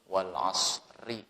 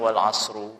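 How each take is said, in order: First: The word ends with an i vowel. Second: The word ends with an u vowel. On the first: The speaker calls it right. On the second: The speaker calls it wrong. "tidak boleh dibaca"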